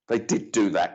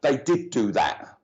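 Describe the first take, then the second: First: Said in the usual way. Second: Slow, insistent, leaning on "did"; "did" stressed hard in "they did do that", slowly; emphatic did. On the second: Real, not acted. Insisting to the sitter, slow with "did" stressed. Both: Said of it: "Mark telling me to tell you".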